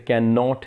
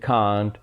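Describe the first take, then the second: First: It is said as two separate full words. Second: It is said as one contracted word. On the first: "जैसे कैन नॉट है" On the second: "हम बोलते हैं कांट"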